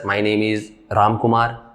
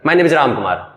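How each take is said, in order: First: It is said in a normal adult voice. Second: It is said in a childlike voice. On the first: A candidate answers an interviewer properly. "आप कहिएगा sir" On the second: A child is answering. "कोई बच्चा ये कहता है"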